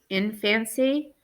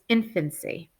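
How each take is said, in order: First: The middle syllable has a full, clear vowel. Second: The middle vowel is quick and reduced. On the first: The speaker calls it wrong. "So here it's really fan, right? Infancy, but we don't say it that way" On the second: The speaker calls it right. "When we say it quick, it's infancy"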